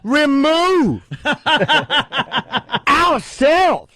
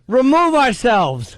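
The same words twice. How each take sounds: First: Said forcefully with emphasis in odd places. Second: Said plainly with ordinary, even emphasis. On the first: It is meant to express anger. The speaker calls it wrong. "put the emphasis on weird parts" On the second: The words alone carry the meaning. The speaker calls it right. "why don't we just remove ourselves?"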